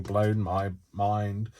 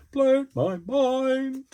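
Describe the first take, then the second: First: Said in the usual way. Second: Much higher and very slow, stretched out; squealed repeat. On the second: Shown as a demonstration. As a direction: squeal "Blown my mind" high and drawn out, marvelling.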